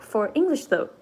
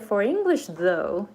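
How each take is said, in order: First: The words are choppy, stopping without forward momentum. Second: The words flow together with steady forward momentum. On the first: The speaker calls it wrong. "it doesn't go like... I would sound like I'm speaking Japanese" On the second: The speaker calls it right. "when I say"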